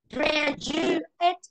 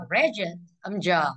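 First: "Graduate" higher, stressed on GRA; graduate modelled. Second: "graduate" slow, weight on GRA; stress on first syllable. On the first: Teacher modelling graduate for the class. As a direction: say "Graduate" slowly, stress on the first syllable. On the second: Teacher stressing graduate on its first syllable. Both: Shown as a demonstration.

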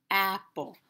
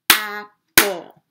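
First: Said in the usual way. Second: "Apple" broken in two loud beats; syllable by syllable. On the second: Shown as a demonstration. Teacher showing children the claps in a word, syllable by syllable. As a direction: clap out "Apple" with a gap between its syllables.

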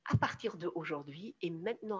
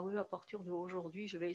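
First: Firm statement of resolve; decided. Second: Soft, half-hearted resolve; undecided. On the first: Coach modelling the moment you take the decision, firmly decided. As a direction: say it as a decision already made. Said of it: "quand tu prends la décision". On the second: Coach showing how slumped posture spoils a decision, half-hearted. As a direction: say it without any conviction. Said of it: "C'est pas une décision". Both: Shown as a demonstration.

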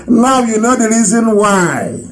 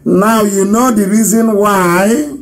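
First: Now stressed with a falling close; falling repeat. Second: Drawn-out triumphant now you know; slow emphasis. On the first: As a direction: repeat it firmly, settled. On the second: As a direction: lean on know with a knowing rise. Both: Shown as a demonstration.

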